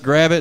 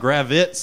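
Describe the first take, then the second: First: The name ends with a plain t sound. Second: The name ends with an added z sound. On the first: The speaker calls it right. "it's just Gravit. It's phonetically sound" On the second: The speaker calls it wrong. "they were adding like Z's on it"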